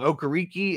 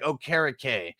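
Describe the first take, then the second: First: The ending does not sound like 'cake'. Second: The ending sounds almost like 'cake'. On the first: The speaker calls it wrong. "Okereke is apparently wrong" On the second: The speaker calls it right. "like Okereke cake almost"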